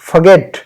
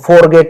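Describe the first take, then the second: First: The R sound is light and soft. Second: The R sound is strong and heavy. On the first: The speaker calls it right. "आर की आवाज को हल्का निकालिए" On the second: The speaker calls it wrong. "फॉरगेट नहीं"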